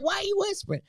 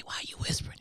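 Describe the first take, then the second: First: High-pitched, amused retelling; laughing question. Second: Softly asked, half-whispered retelling; hushed question. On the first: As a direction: ask it through laughter, voice shooting up. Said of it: "I'm laughing like". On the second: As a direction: ask it under the breath, imitating the hushed call. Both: Retold or imitated.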